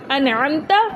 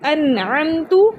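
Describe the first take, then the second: First: The final vowel is an 'a' sound. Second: The final vowel is a 'u' sound. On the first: The speaker calls it right. "ज़बर" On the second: The speaker calls it wrong. "पेश"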